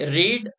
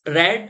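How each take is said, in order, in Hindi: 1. स्वर लंबा है, जैसे 'reed' में। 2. स्वर छोटा है, जैसे 'red' में।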